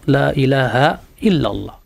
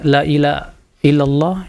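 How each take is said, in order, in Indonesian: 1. Bunyi h pada ilaha diucapkan dengan jelas. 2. Bunyi h pada ilaha dihilangkan. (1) "pengucapan yang benar seperti itu" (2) "Adapun yang baca ilaha, ila"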